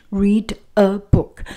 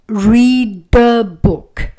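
First: "Read a book" word by word; no liaison between "Read" and "a"; separated words. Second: "read the book" slow and loud, linked; slow, punched liaison in "read the book"; linked words. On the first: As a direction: give "Read", "a" and "book" each its own start. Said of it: "pronounce each word". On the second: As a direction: stretch "read the" into one joined, emphatic sound. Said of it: "we do not have that liaison". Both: Shown as a demonstration.

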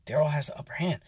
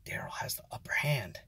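First: Softer, hushed and awed; hushed repeat. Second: Whispered in awe; awed whisper. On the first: Watching the cook win, a hushed awed repeat. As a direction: say it again under your breath. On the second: Watching the cook win, whispered in awe. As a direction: breathe it like a secret thrill. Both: Retold or imitated. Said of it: "and I was like".

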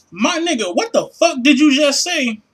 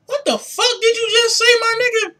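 First: Said in the usual way. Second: High-pitched disbelief; baffled. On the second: Real, not acted. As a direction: squeal it out in total confusion. Baffled by the rep's reply.

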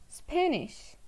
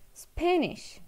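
The two takes are said the same way.

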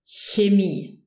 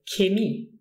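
First: Chemie opened with a soft palatal ch. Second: Chemie opened with a hard K; K sound. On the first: Teacher showing learners the standard form, chemie with soft ch. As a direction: say chemie as "HYAY-mee". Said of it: "If it's in the beginning of the word". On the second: Teacher showing what some people say, chemie with K. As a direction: say chemie as "kay-MEE". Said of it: "with a K, and they say". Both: Shown as a demonstration.

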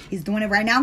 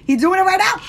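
First: Said in the usual way. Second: Much higher, louder eager rise; excited insistence. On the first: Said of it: "repeats the line". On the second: Real, not acted. Telling viewers the artist is adding them now, excited and loud. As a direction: bounce it up, thrilled he's on it. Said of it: "repeats the line louder".

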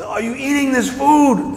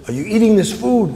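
First: Slow, high-pitched mock shout; acted yell to someone who didn't hear; shouted repeat. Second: Raised-pitch acted question; high but not yet shouted; calling across. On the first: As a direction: holler it across a distance, drawing out each word. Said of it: "I can't hear you, what?". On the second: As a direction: call it out to someone in the distance. Calling to bear across enclosure.

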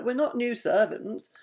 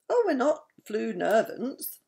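First: Said in the usual way. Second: "flu nervants" with the first sounds of "new servants" swapped; spoonerism. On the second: A narrator's reading. Doc answering the castle guard, tongue-tangled "flu nervants". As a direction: muddle it into "flu nervants", said as if correct.

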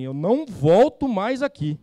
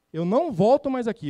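First: Firme e alto, devagar, ao bater na mesa; revolta encenada. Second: Repetido firme e alto, mais agudo; revolta encenada. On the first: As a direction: diz com indignação, mais alto. Bate na mesa e fala. (indignação alta e lenta) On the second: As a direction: insista com indignação, mais alto e mais agudo. Repete a frase indignado. (repetição indignada, alta e aguda) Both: Retold or imitated.

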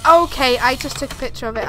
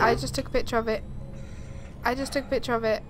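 First: Said in the usual way. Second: Fast, rattled repeat; fast repetition. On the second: Real, not acted. Repeating herself to the game, fast and rattled. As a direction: rush the words out nervously. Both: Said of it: "repeated faster".

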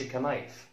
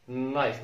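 First: "كنايف" with the K sounded before the n; wrong pronunciation. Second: Said in the usual way. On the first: Shown as a demonstration. Teacher showing what we don't say, mispronounced with a sounded K. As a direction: voice the silent K in "كنايف", ke-nife. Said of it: "ما نقولش كنايف". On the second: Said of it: "K لا ينطق".

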